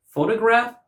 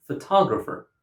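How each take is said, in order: First: "photograph" as FOH-tuh-graf; "photograph" starting on a strong FOH; first-syllable stress. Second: "photographer" as fuh-TOG-rapher; "photographer" peaking on TOG; second-syllable stress. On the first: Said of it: "stress on the first syllable". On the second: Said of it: "stress on the second syllable". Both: Shown as a demonstration.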